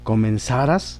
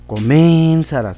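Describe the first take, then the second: First: The stress is on the last syllable, ras. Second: The stress is on the second syllable, men. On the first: The speaker calls it right. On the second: The speaker calls it wrong.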